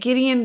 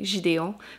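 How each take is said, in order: First: The name is said with an English pronunciation. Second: The name is said with a French pronunciation. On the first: "I finally learned how to pronounce it in English" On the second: "it sounds very fancy in French by saying Gideon"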